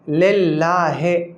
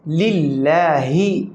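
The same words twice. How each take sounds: First: The last vowel is an 'ay' sound. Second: The last vowel is an 'ee' sound. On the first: The speaker calls it wrong. "ये गलत है" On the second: The speaker calls it right. "सही क्या है लिल्लाहि ... है नहीं ही"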